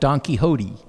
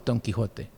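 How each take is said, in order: First: The name is said with an anglicized pronunciation. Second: The name is said with a Spanish pronunciation.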